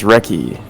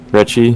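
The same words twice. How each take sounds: First: Recchi as "RECK-ee", falling at the end; confirmed K pronunciation. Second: Recchi as "RETCH-ee", questioning rise; unsure CH pronunciation. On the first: Player reporting the correct name to a friend, Recchi as "RECK-ee". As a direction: state Recchi firmly with a hard K. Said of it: "it is pronounced Recchi". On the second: Player guessing at a hockey name, Recchi as questioning "RETCH-ee". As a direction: try Recchi with a CH sound, asking. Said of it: "I don't know how you say it". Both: Real, not acted.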